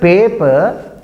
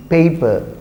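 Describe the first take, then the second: First: Paper with a drawn-out pure "eh", PEH-puh; mispronunciation. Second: Paper said as PAY-puh; correct pronunciation. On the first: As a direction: say paper slowly without the "ay" glide. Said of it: "This is not paper". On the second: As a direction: say paper with a gliding "ay" diphthong. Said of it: "this is paper". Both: Shown as a demonstration.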